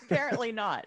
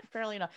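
First: Laughing. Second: Said in the usual way. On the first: Real, not acted. Laughing at Dan's taffy confession.

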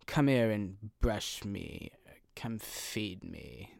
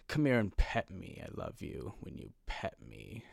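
First: Slow, drawn-out put-on haughty accent; condescending cat. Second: Soft, coaxing mock-sweet cat; cat being nice. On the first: Cat demanding to be brushed and fed, condescending slow voice. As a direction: order people about like a snooty cat. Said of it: "They'd have that type of accent". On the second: Cat wanting something from its owner, falsely nice voice. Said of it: "they would do it in a nice way".

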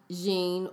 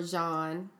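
First: "Jean" said the English way, rhyming with "seen"; first pronunciation option. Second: "Jean" said the French way, like "zhon"; alternative French pronunciation. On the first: Host offering a designer's name two ways, "Jean" with long ee. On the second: Host offering a designer's name two ways, "Jean" as French "zhon". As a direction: say "Jean" with an open French vowel. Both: Shown as a demonstration. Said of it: "depending on how you pronounce it".

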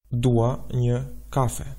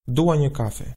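First: Slow, deliberate Albanian phrase; slow model answer. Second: Said in the usual way. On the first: Shown as a demonstration. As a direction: say it slowly for learners. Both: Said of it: "Let's put it all together".

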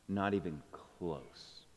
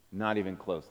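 First: Slow, hushed admission; whispering a secret. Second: Said in the usual way. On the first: Real, not acted. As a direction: let it barely out, slowly. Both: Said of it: "but don't tell anyone".

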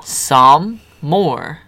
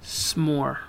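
First: "Some more" drawn out, "some" stretched then "more"; two separate words, slow; said slowly as two words. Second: "S'more" said quickly as one word, no vowel after s; clipped one-syllable version. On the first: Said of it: "Say it slow". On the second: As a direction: squash "S'more" into a single short syllable. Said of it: "You're not saying some more". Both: Shown as a demonstration.

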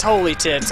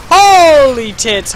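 First: Said in the usual way. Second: Slow, loud drawn-out shock; shocked exclamation. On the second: Real, not acted. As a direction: stretch it out in disbelief. Shocked in game.

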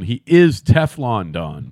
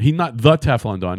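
First: Slow, with "is" leaned on hard; "He is Teflon Don" hitting "is"; stress on is. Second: Said in the usual way. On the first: Shown as a demonstration.

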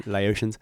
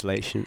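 First: Laotians said as lay-OH-shuns; full pronunciation. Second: Laotian said with two syllables, LAY-shun; shortened pronunciation. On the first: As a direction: sound Laotians like "lay-ocean" with an s. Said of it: "go lay by the ocean". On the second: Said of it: "That's a beautiful word". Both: Shown as a demonstration.

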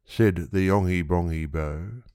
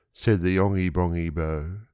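No difference in how they are said.

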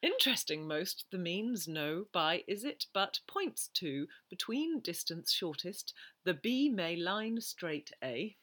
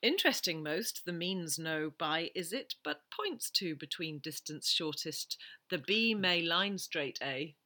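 First: Slower second reading, reversed word order; backwards speech. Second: Backwards speech. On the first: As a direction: read it backwards again, more slowly. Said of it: "Can I hear it again". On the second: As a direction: quote read word by word in reverse. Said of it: "I'm gonna say backwards". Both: Shown as a demonstration.

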